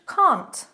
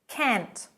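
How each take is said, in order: First: The vowel is a long open ah. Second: The vowel is a short flat a. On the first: This is the British pronunciation. "But in British English" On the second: This is the American pronunciation. "I'm going to start with American English"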